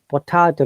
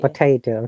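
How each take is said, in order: First: It is said in a British accent. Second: It is said in an American accent.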